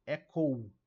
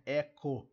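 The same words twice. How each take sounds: First: "Echo" as E-kou; loud "Echo", gliding into U at the end; little U at end. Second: "Echo" as E-ko, simple O; plain O ending. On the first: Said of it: "de pronunciar o Uzinho aqui". ("Echo" com uzinho no final) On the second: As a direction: end "Echo" on O without a glide. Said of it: "não é Echo". ("Echo" com O final simples) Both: Shown as a demonstration.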